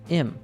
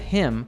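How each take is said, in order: First: The word starts without the H sound. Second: The word starts with a clear H sound. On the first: "we natives usually drop the first sound" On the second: "instead of"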